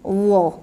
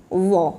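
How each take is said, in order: First: The consonant sounds thick, with rounded sour mouth. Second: The same.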